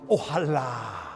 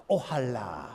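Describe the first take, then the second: No difference in how they are said.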